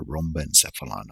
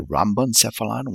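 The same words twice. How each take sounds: First: Rhombencephalon tried with "rom" as first syllable; alternative trial pronunciation. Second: Rhombencephalon tried with "ram" as first syllable; first trial pronunciation. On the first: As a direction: say rhombencephalon starting "ROM-ben". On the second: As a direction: say rhombencephalon starting "RAM-ben". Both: Shown as a demonstration. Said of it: "I'm gonna double check the pronunciation".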